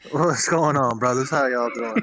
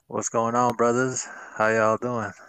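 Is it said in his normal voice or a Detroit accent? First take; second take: Detroit accent; normal voice. First: It is said in a put-on Detroit accent. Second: It is said in his normal accent.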